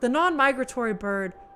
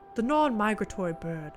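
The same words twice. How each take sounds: First: It is read in the speaker's ordinary accent. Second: It is read in an attempted British accent.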